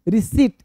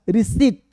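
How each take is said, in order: Both takes have the same delivery.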